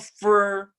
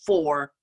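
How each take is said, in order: First: The word is said with a reduced 'fur' vowel. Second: The word is said with a full 'for' vowel. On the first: The speaker calls it wrong. "it's not fur" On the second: The speaker calls it right. "it's well, for"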